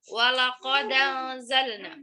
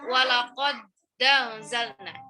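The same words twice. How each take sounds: First: The d links straight into a, no glottal stop. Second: The d stops, then a glottal stop before a. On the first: The speaker calls it right. "Harokat hamzahnya fathah ke huruf dal" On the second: The speaker calls it wrong. "jangan kalian baca"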